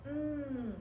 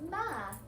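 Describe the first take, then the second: First: A continuous hum with no vowel after it. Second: A short m sound followed by a vowel. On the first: The speaker calls it right. "it's mmm" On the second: The speaker calls it wrong. "not ma"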